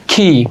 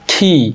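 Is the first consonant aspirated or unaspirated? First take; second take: aspirated; aspirated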